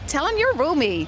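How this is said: It is said in an American-Canadian accent.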